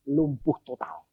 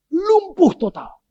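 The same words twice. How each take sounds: First: Said in the usual way. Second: "Lumpuh" high and drawn out, louder; dramatic emphasis. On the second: Shown as a demonstration. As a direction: hammer home "Lumpuh total" slowly on a high pitch. ("Lumpuh" ditekankan, tinggi dan panjang)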